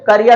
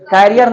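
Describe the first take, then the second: First: The first syllable sounds like 'ker'. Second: The first syllable sounds like 'care'. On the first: The speaker calls it right. "वो करियर होता है" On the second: The speaker calls it wrong. "कैरियर नहीं होता"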